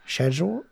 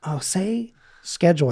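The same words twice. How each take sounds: First: "Schedule" said the British way, SHED-yool, with a rise; mock Brit repeating "Schedule" as SHED-jool. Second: "schedule" said the American way, SKED-jool; playful ask for "schedule" with an SK start. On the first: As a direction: quizzical British "Schedule" starting with SH. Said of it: "And they'll be like". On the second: Retold or imitated. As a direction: coax "schedule" with a hard sk sound. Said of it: "they'll say something a little bit more like".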